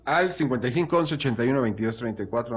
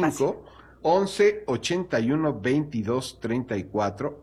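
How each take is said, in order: First: The number is said fast. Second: The number is said slowly.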